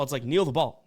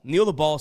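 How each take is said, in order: First: Said in the usual way. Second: Louder, punchier repeat of Kneel the ball; emphatic repeat. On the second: Real, not acted. Host scolding greedy teams, loud emphatic repeat. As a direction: hammer home Kneel the ball with a louder second take.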